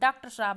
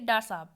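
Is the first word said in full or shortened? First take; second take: full; shortened. First: The first word is said in full. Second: The first word is cut to one syllable. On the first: "हम पूरा ना बोल के" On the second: "प्रयत्न लाघव मतलब छोटा कर देना"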